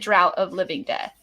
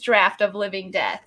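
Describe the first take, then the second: First: The first word rhymes with cow. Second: The first word rhymes with craft. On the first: The speaker calls it wrong. "I would have totally mispronounced that. I would have said" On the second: The speaker calls it right. "real quick heads up, it's draft"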